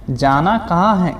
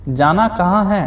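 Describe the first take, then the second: No difference in how they are said.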